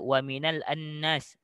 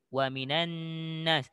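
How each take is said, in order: First: An extra 'a' vowel is pronounced before 'nas'. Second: The words link directly with no extra vowel. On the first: The speaker calls it wrong. "salah kalau awak bariskan dengan baris atas" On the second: The speaker calls it right. "wa minan nun terus sambung nun"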